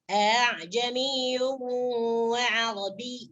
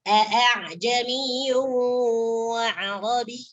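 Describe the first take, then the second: First: The second glottal stop is softened toward a vowel. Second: The second glottal stop is pronounced fully and clearly. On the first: The speaker calls it right. "hamzah yang kedua ini dibaca samar ya" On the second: The speaker calls it wrong. "jangan dibaca"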